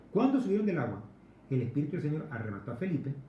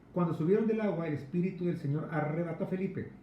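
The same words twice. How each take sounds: Both takes have the same delivery.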